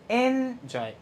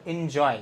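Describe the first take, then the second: First: enjoy with the এন stressed and drawn out; stress on first syllable. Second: enjoy with the weight on জয়; short এন, then lean on জয় in enjoy; stress on second syllable. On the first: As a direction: wrongly lean on এন in enjoy, drop জয়. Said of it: "এভাবে বলি না". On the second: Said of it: "জয়টা কিন্তু stressed". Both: Shown as a demonstration.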